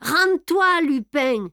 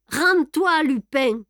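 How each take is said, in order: First: Much higher, loud shouted order; yelled. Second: Much higher, loud shouted order; yelled again. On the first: Ganimard yells at Lupin through the broken door, full shout. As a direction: bellow the surrender demand at the door. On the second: Ganimard repeats his order to Lupin, loud shout. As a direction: bark the demand a second time. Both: A narrator's reading. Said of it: "hurla Ganimard".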